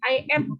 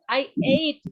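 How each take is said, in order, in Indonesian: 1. Kata ate terdengar seperti at. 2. Kata ate tidak terdengar seperti at. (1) "Tadinya aku denger I ate"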